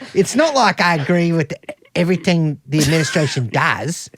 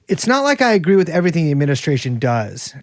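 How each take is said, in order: First: It is read in a South African accent. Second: It is read in the speaker's usual accent.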